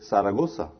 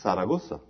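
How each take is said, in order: First: The z is sounded like s. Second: The same.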